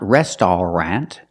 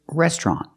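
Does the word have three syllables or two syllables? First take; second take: three; two. First: The word is said with three syllables. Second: The word is said with two syllables. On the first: The speaker calls it wrong. "It's not restaurant, We don't pronounce it with three syllables" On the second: The speaker calls it right. "it's restaurant. we pronounce it with two syllables"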